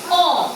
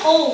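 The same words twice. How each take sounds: First: The vowel is said in Tagalog style. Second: The vowel is said in English style. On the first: The speaker calls it right. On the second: The speaker calls it wrong.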